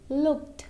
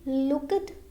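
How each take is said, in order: First: The word is one syllable, ending in t. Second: The ending is sounded as an extra syllable. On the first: The speaker calls it right. "this E is silent" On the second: The speaker calls it wrong. "we can't say looked, that will be wrong"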